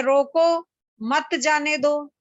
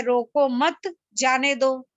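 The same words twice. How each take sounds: First: "रोको", then a break before "मत जाने दो"; slow, split after "रोको"; pause after रोको. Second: "रोको मत" together, then a break before "जाने दो"; slow, split after "मत"; pause after मत. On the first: Teacher reads the sentence as meant, pausing between "रोको" and "मत". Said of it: "एक सेंटेंस है". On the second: Teacher shows someone misreading it, pausing between "मत" and "जाने". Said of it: "और कोई उसको पढ़ता है". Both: Shown as a demonstration.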